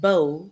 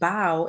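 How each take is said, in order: First: The vowel sounds like the one in low. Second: The vowel sounds like the one in how. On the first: A ribbon tied in the hair. "bow that rhymes with low" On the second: Bending forward at the waist. "bow rhymes with how"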